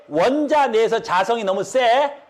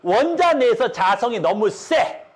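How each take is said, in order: First: Said in the usual way. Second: Slowed down, each word spelled out for students; slow emphatic repeat. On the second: Shown as a demonstration. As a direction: say 원자 내에서 자성이 너무 세 slowly, stressing 원자. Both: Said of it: "이걸 굉장히 어려워하더라고요".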